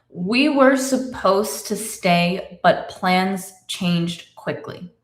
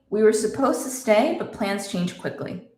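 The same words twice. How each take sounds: First: The sentence is spoken slowly and carefully. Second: The sentence is spoken at normal conversational speed.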